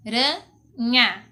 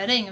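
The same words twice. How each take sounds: First: "aranha" broken into a, ra, nha with clear pauses; syllable by syllable. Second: Said in the usual way. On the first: Shown as a demonstration. Teacher showing pupils how to separate "aranha", syllable by syllable. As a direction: say "aranha" very slowly, one syllable at a time. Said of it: "se a gente for separar a palavra". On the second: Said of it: "se a gente for separar".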